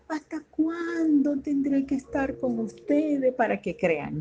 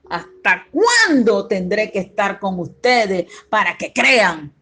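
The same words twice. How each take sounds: First: It is said softly and mildly, without force. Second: It is said loudly and firmly, sounding displeased. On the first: The speaker is only mildly asking, not rebuking. The speaker calls it wrong. "No me imagino diciéndole" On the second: The speaker is rebuking and showing displeasure. The speaker calls it right. "fíjese cómo estoy haciendo el tono de voz"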